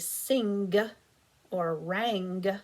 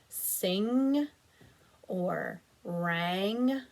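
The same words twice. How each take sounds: First: The N and G are sounded out separately. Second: The N and G blend into one nasal sound. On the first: The speaker calls it wrong. "We don't say" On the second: The speaker calls it right. "reading them together in a nasal sound"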